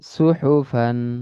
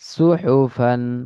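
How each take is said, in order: No difference in how they are said.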